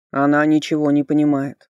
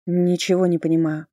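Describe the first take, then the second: First: Loud, grumbling skull voice; interrupting skull. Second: Put-on mildly indignant young heroine. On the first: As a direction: cut in gruffly, dismissively. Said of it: "перебил меня Йорк". (ворчливо перебивающий череп) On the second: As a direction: protest with restrained bafflement. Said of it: "возмущённо заявила я". (сдержанное возмущение) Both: A narrator's reading.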